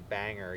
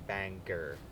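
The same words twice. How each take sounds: First: The middle G sound is soft and light. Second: The middle G sound is hard and emphasized.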